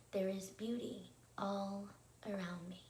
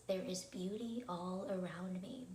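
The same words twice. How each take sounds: First: Spaced out with pauses around "all"; measured, phrase by phrase for others to join; repeat-along phrasing. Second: Said in the usual way. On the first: Shown as a demonstration. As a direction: lead a group repetition, "There is beauty... all... around me". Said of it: "let's go ahead and repeat that together". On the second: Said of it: "our thought for tonight is".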